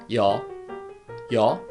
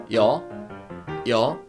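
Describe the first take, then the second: No difference in how they are said.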